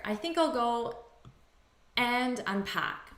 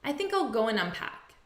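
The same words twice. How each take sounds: First: Said in the usual way. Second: Natural spoken run-on, "go-'n unpack"; reduced AND. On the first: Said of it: "Now notice here". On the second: Shown as a demonstration. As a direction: GO AND linked as "go-'n". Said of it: "in natural spoken English".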